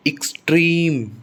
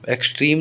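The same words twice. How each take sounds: First: extreme as "iks-TREEM", long high second syllable; weak "iks", stretch trim in extreme; stress on second syllable. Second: extreme opening on "eks"; wrong pronunciation. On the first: Teacher correcting the word, extreme stressed on trim. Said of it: "stress second syllable पर आता है". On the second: Teacher showing the mistake, extreme starting with "eks". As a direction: open extreme with a clear e vowel. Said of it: "extreme नहीं". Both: Shown as a demonstration.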